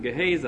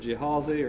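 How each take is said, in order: First: The name begins with a hard G sound. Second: The name begins with a J sound. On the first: This is the speaker's own way of saying it. "I pronounce it Gehazi" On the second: This is a way others may choose to say it. "if you want to pronounce it Jehazi"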